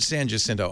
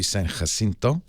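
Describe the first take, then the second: First: The name is pronounced the English way. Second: The name is pronounced the Spanish way. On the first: "I thought I'd heard" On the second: "the Spanish pronunciation would be"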